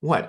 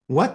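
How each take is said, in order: First: Said in the usual way. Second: Quick rising question, pitched up. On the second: A narrator's reading. Prince questions his mother's story, voice rising. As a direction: let the one word climb in disbelief. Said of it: "his voice rising".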